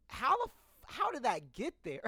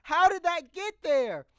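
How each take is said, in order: First: Higher, stunned, cut off mid-curse; shocked disbelief. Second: Much higher and louder, amazed; almost shrieking in disbelief; shocked disbelief. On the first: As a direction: caught off guard, voice jumping up. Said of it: "And I'm just like". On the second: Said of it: "I was like". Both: Retold or imitated.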